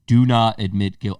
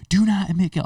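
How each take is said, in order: First: Said in the usual way. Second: Higher, mock adjuster yelling; imitated yell. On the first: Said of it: "the insurance adjuster is like". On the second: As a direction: yell it like the adjuster did at you. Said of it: "I remember him yelling".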